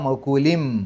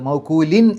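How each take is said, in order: First: The word ends with an m sound. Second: The word ends with an n sound. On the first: The speaker calls it right. "മീമിലേക്ക് പോയിട്ടാണ് അവിടെ നിർത്തേണ്ടത്" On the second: The speaker calls it wrong. "എന്നല്ല"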